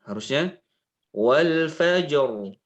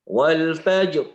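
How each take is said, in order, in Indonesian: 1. Bunyi r di akhir ditahan dan mengalir terus. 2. Bunyi r di akhir dipotong sangat pendek. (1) "Ada suara aliran ra" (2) "Suaranya pendek ra-nya"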